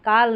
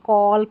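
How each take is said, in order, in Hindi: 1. स्वर खुला, बिना गोलाई वाला 'ah' है। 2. स्वर गोल किया हुआ 'aw' है। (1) "काल नहीं" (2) "कॉल पढ़ना है"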